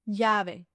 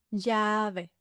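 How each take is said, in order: First: Said in the usual way. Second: LLAVE with a long, level "yaa"; slow "Llave", first vowel held; drawn-out demonstration. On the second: Shown as a demonstration. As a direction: stretch "Llave" slowly for learners. Word repeated slowly.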